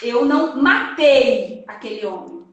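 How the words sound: The stress falls on the word matei. The speaker harmed him in another way but did not kill. "eu vou colocar a palavra tônica dessa frase no matei"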